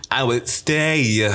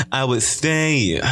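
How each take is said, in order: Both takes have the same delivery.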